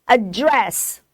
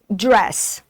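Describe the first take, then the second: First: "a dress" said as adDRESS, second syllable punched; British stress. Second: "dress" said as ADdress, first syllable punched; American stress. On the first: Teacher shows students the British stress on "a dress". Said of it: "a sílaba mais forte é dress". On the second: Teacher shows students the American stress on "dress". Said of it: "a tonicidade é na primeira sílaba". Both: Shown as a demonstration.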